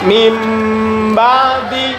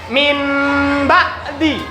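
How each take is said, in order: First: The first word ends with an m sound. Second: The first word ends with an n sound. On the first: "Berubahlah bacaannya menjadi mim ba'di" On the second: "Atau dibaca min ba'di. Ya, logikanya"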